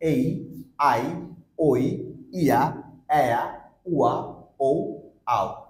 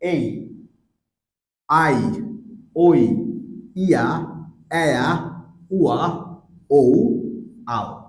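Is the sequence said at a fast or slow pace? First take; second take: fast; slow. First: The sounds are said at a faster pace. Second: The sounds are said at a slower pace.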